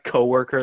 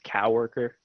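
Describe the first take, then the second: First: The word is pronounced in the usual way. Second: The word is pronounced in an odd, mangled way. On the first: The speaker calls it right. "Like coworker" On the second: The speaker calls it wrong. "they pronounce as coworker"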